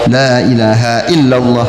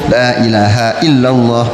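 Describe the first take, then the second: First: The phrase stops on a final h sound. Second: The phrase stops on a final h sound.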